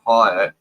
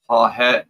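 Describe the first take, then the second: First: The middle H sound is left out. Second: The middle H sound is pronounced. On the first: The speaker calls it right. "the H is silent" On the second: The speaker calls it wrong.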